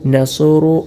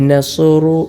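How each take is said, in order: The two takes are said the same way.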